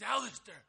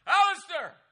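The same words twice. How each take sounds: First: Called out across the cabin, louder. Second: Full yell. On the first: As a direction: rufe den Namen laut durch die Hütte. Donald calls out at night. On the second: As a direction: yell the name at the top of the voice, much higher. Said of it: "'Cause it's more like". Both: Retold or imitated.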